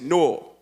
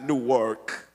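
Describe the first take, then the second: First: The name is run together as one word. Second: The name is split into two parts. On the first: This is how locals say it. The speaker calls it right. "just like we say Newark, one word" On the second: This is how outsiders say it. The speaker calls it wrong. "not Newark"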